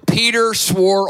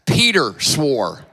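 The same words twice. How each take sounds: First: Said in the usual way. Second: Laughing through the words; laughing flub. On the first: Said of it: "We can edit that later". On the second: Real, not acted. Preacher laughing at his own misreading. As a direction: chuckle at your own slip.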